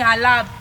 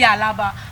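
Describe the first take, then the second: First: The name is clipped, dropping the final vowel. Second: The name is said in full, ending in a vowel. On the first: "you're hearing Alab" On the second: "maybe Alaba"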